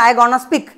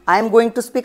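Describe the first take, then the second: First: Going to is reduced into one contracted word. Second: Going to is said in full as two words. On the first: "गोइंग टूला direct गॉना करून दिला" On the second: "असं आपण full म्हणणार"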